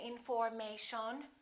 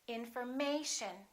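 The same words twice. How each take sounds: First: The stress is not on the third syllable. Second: The stress is on the third syllable. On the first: The speaker calls it wrong. "We don't say" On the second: The speaker calls it right. "the most stressed syllable right here, the A"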